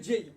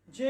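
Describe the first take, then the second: First: "জেই" gliding from e into i; correct letter J. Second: "জে" on a pure e, no glide; common mispronunciation. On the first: Teacher correcting how we say J, correct pronunciation. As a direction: finish "জেই" on an i-sound. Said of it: "এটা উচ্চারণ হবে জেই". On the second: Teacher quoting what we say, common mispronunciation. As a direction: say "জে" without the i ending. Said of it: "কিন্তু জে হবে না". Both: Shown as a demonstration.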